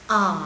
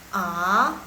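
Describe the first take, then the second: First: The pitch dips down, then rises again. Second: The pitch rises from low to high. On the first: "A nada ketiga" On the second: "A nada kedua"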